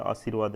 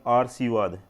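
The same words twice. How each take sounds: First: Said in the usual way. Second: आरसीवाद said as aar-see-vaad, r before s; आरसीवाद with the r moved before the s; wrong spelling said. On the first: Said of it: "ये बन गया आरसीवाद". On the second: Shown as a demonstration. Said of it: "आशीर्वाद नहीं बना है". (आरसीवाद को र पहले बोलकर, गलत उच्चारण)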